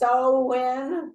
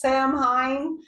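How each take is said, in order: First: The word is said like 'sow-in'. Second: The word is said as it is spelled. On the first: The speaker calls it right. "I know it's so win, but it doesn't look like that" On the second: The speaker calls it wrong. "I always say it's Samhain, and that's wrong"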